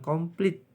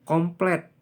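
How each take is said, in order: First: The last vowel sounds like 'i'. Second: The last vowel sounds like 'e'. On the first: This is a nonstandard form. The speaker calls it wrong. "bukan komplit" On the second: This is the standard form. The speaker calls it right. "tapi komplet, pakai E"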